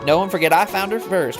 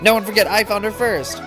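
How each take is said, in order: First: It is said in a Southern accent. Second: It is said in a neutral accent.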